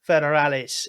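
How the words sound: It is said with a Spanish accent and final s. "to pronounce it more with the accent"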